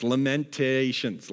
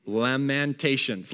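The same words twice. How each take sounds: First: "Lamentations" slowly, leaning on "lament"; slow Lamentations with lament stressed. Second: "Lamentations" stretched slowly, syllable by syllable; drawn-out Lamentations. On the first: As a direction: draw out "Lamentations" to show "lament". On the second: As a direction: linger on each syllable of "Lamentations". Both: Shown as a demonstration. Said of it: "you get it?".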